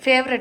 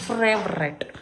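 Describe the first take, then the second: First: The word starts with a plain f sound. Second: The word starts with an fr sound. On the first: This is the usual form of the word. "ಫೇವ್ರೆಟ್ ಅಲ್ಲ" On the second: This is how the child says the word.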